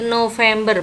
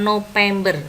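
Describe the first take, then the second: First: The middle consonant is a v sound. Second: The middle consonant is a p sound. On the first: The speaker calls it right. "yang betul pakai V bukan P" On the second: The speaker calls it wrong. "bukan P"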